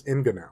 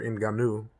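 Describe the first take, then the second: First: "Ngannou" as he thinks it is pronounced; first pronunciation. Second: "Ngannou" in its second heard pronunciation; alternative pronunciation. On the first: Naming the UFC heavyweight champion, first pronunciation of "Ngannou". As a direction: say "Ngannou" the first of two ways. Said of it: "I think that's how you pronounce it". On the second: Offering another version of the champion's name, alternative pronunciation of "Ngannou". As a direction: say "Ngannou" the other way. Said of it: "I've heard it pronounced both ways". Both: Shown as a demonstration.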